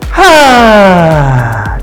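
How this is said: The sound is a loose, airy sigh. The speaker calls it right. "이게 한숨이잖아요"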